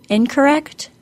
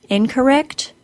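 Both takes have the same delivery.

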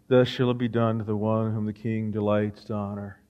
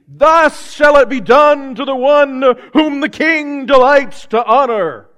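First: It is said flatly, with little energy. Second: It is said with lots of energy.

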